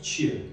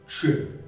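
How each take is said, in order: First: The ch sound is soft. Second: The ch sound is hard. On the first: "он звучит как «ч», мягко" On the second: "В эрзянском языке он звучит жестко"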